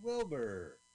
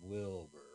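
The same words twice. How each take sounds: First: It is said in a happy way. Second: It is said in a dismissive way.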